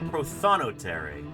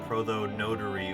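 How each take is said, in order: First: The stress falls on the second syllable. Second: The stress falls on the third syllable. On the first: The speaker calls it right. "The emphasis on the second syllable" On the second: The speaker calls it wrong. "I was starting with notary"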